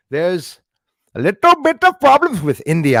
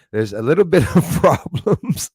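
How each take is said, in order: First: High, loud Indian accent impression. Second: Put-on half-laughed Indian accent, louder; laughing Indian accent. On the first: Host mimicking Indian news in an Indian accent. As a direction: throw on a big Indian accent for the line. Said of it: "I love the Indian accent, too". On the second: Host repeating the line in a laughing Indian accent. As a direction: slip back into the Indian accent while laughing. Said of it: "I won't do it".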